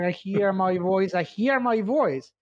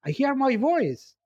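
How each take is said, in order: First: Growing wonder. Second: Overjoyed at hearing himself; thrilled high cry. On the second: Ancient being thrilled to hear his own voice, high. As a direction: voice soaring high with joy. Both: Acted. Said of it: "David asks Marcias to talk".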